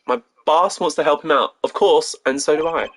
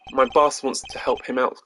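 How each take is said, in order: First: Slightly raised, spirited delivery; upbeat, emphatic young lawyer; energetic rookie. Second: Said in the usual way. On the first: Acted. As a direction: say it with eager conviction. Rereads line more energetically as Apollo.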